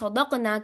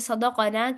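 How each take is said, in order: First: The q is silent, with no vowel after it. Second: The q is followed by a vowel. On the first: The speaker calls it wrong. "साकिन कर देना" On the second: The speaker calls it right. "मुतहरिक हर्फ"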